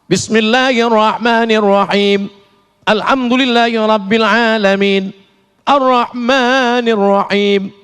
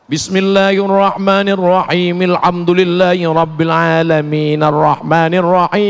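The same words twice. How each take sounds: First: There is a pause after each verse. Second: The verses are joined without pausing.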